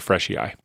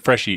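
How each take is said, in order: First: The name ends in an 'ee' then 'eye' sound. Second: The name ends in a single 'ee' sound.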